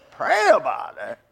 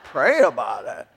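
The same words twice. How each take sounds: First: Said in the usual way. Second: Low, chuckling echo of the advice; laughing repeat. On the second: Real, not acted. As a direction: laugh at the obvious idea. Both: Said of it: "I hadn't even thought of that".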